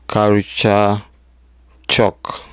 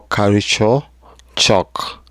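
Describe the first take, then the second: First: Said in the usual way. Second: Culture said plainly, shock whispered. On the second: Shown as a demonstration. Vlogger teasing the topic, whispers "shock". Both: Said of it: "or culture shock".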